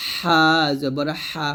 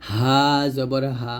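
First: হা জবর হা slow, squeezed from mid-throat; Arabic ḥa pressed. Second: হা জবর হা slow, with a normal breathy h; Arabic hā normal. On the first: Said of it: "চাপ দিয়ে নিয়ে আসবো". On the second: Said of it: "এটা হবে নর্মালভাবে". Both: Shown as a demonstration.

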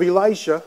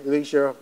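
First: "Elisha" as e-LIE-sha; Elisha, first pronunciation. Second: "Elisha" as e-LEE-sha, tossed off softly; Elisha, alternative pronunciation. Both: Shown as a demonstration. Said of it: "however you want to pronounce it".

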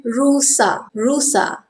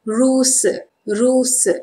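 First: Formal "rusa" ending in a full A; careful "rusa" with open final vowel; formal Malay pronunciation. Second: Everyday "ruse" ending in a schwa; informal Malay pronunciation. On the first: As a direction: say "rusa" as ru-sah. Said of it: "Formal pronunciation". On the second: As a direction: say "ruse" as roo-suh. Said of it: "We all say informal pronunciation". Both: Shown as a demonstration.

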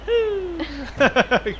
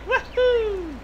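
First: Whooping cheer. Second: Imitating woohoo. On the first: Real, not acted. Cheering jumping out of car. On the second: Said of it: "I get out of the car to do that".

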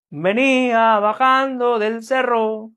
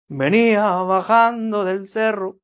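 First: Same sung line raised a step, slow; sung a tone higher. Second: Slow sung line at the base key; sung at base pitch. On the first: Musician teaching viewers, sung slow a tone higher. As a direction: sing it a whole tone higher. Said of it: "Un tono más arriba". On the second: Musician teaching viewers, sung slowly at base key. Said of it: "el tono es este". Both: Shown as a demonstration.

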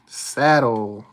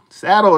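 First: Said in the usual way. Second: Loud, high, thrilled yell; excited shout. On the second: Real, not acted. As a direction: shout it out in triumph. Finding the saddle, shouting it again.

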